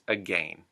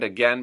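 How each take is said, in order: First: It is said in a Canadian accent. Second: It is said in an American accent. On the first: "Canadian English" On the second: "U S English"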